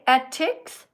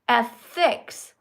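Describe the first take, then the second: First: The middle consonant is a plain t sound. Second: The middle consonant is a th sound. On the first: The speaker calls it wrong. "finger not wet" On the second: The speaker calls it right. "finger wet"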